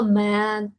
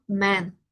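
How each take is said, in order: First: "man" with an a vowel instead of e; the mistake to avoid; wrong version. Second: "man" meant as men with an e; correct version. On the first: Teacher showing students the wrong vowel. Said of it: "no digo man". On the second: Teacher giving students the correct form. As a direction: say the right vowel. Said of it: "Digo man". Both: Shown as a demonstration.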